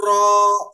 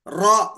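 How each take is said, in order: First: را rolled with a long loud trill. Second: را with one short tap, no rolling; just tap را once; single tap ra. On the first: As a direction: overdo the trill on را as a wrong example. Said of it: "یہ تکرار ہے". (غلط: را میں زیادہ تکرار) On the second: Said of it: "را اس طرح بولے کافی ہے". (درست: را بغیر تکرار کے) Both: Shown as a demonstration.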